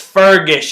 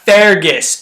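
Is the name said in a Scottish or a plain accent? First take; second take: plain; Scottish. First: The name is said in a plain accent. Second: The name is said with a Scottish accent. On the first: The speaker calls it right. "it's Fergus" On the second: The speaker calls it wrong. "His name is not Fergus"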